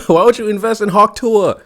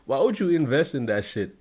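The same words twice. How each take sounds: First: High, loud laughing disbelief; higher, louder stunned question; incredulous shout. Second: Said in the usual way. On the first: Real, not acted. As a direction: shout the question, amazed anyone fell for it. Baffled by the crypto loss.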